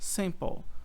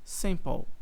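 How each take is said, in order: Both takes have the same delivery.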